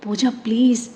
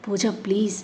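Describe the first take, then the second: First: Pleading. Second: Softer, gentle please; soft coaxing. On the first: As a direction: beg her to break the silence. Begging her to speak. (బతిమాలుతూ please) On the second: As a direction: coax her tenderly. Softly coaxing her to eat. (మెల్లగా బతిమాలుతూ) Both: Acted.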